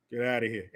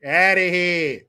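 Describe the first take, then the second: First: Lower, softer brush-off; low dismissal. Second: Louder, stretched-out send-off; drawn-out dismissal. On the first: Sending the kid away, low muted dismissal. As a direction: toss it off low and under. First of two takes. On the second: Sending the kid away, loud drawn-out dismissal. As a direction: hold the last word long and strong. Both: Acted.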